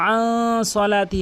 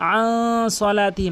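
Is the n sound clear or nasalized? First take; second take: nasalized; nasalized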